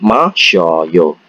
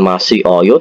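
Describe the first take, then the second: First: The vowels are merged into one syllable. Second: The vowels are kept as separate syllables. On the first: The speaker calls it right. "disingkat masyoyo" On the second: The speaker calls it wrong. "Bukan masih oyo"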